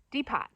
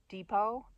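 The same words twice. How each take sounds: First: "Depot" with the final T sounded; "Depot" read as spelled, dee-POT; misread pronunciation. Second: Said in the usual way. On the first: Retold or imitated. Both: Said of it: "he grew up reading it and not saying".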